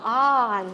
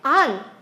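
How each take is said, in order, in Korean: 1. 모음이 길고, 입을 크게 벌리고 내요. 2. 모음이 짧고, 입을 작게 벌리고 내요. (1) "굉장히 길게 발음을 하는 입도 더 크게 벌리고" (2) "미스터 안 이렇게 하니까 정말 못 알아듣더래"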